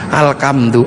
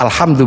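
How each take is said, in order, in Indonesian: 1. Konsonan tengah adalah bunyi k. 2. Konsonan tengah adalah bunyi h. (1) "menjadi alkam" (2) "gak punya huruf ha"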